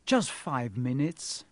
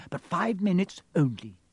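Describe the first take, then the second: First: Mild, drawn-out plea; pleading. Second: Raised-pitch grudging nurse; strict concession. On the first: Harry begs the nurse for a visit, mildly pleading. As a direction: coax slowly, lifting at the end. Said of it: "Harry pleaded". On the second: Nurse grudgingly lets friends in, strict. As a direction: give in, but set a firm limit. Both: A narrator's reading.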